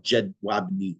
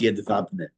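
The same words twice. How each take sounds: First: "Jedwabne" read English-style as jed-WAB-nee; as spelled. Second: "Jedwabne" as yed-VAB-neh; correct Polish pronunciation. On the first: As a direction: sound out "Jedwabne" slowly with hard J and W. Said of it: "It's spelled Jedwabne". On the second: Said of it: "but it's pronounced Jedwabne". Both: Shown as a demonstration.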